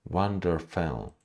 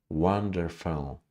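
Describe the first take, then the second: The two takes are said the same way.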